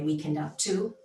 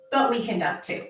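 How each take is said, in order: First: Said in the usual way. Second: "we can dunk too" said higher and louder, pressed hard; stress on dunk too. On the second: Shown as a demonstration. Speaker insisting women can dunk, with higher, louder emphasis. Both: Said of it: "Not me personally".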